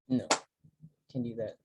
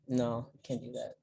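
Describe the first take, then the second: First: The refusal sounds cold and stern. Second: The refusal sounds warm and open.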